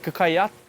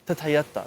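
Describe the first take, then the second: First: The word is said with K sounds. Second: The word is said with soft T sounds. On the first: "instead of saying like kakayaka" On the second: "They want to say tatayata, tatayata, like real, real soft"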